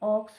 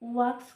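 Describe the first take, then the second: First: The word begins with a plain vowel sound. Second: The word begins with a w sound. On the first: The speaker calls it right. "এই উচ্চারণটা কিন্তু অক্স হচ্ছে" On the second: The speaker calls it wrong. "ওয়াক্স কিন্তু হচ্ছে না"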